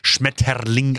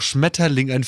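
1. Das Wort wird übertrieben und hart gesagt. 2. Das Wort wird normal und weich gesagt.

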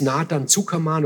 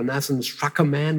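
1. Der Name wird deutsch ausgesprochen. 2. Der Name wird amerikanisch ausgesprochen.

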